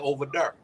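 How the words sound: It is said in a Midwest accent.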